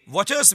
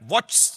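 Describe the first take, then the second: First: The ending forms a separate second syllable. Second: The ending is squeezed into one syllable. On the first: The speaker calls it right. "වොචර්ස් විය යුතුයි" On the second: The speaker calls it wrong. "වොච්ස් නෙවෙයි"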